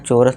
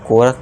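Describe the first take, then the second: First: The word begins with a 'ch' sound. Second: The word begins with a 'k' sound. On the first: The speaker calls it wrong. "अब इसे यहाँ चोरस नहीं पढ़ेंगे" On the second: The speaker calls it right. "इसका sound का का हो जाएगा, तो इसे कोरस पढ़ेंगे"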